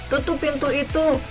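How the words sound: It is said in an angry, snapping tone. It is a rude command. The speaker calls it wrong. "sambil marah atau sambil membentak"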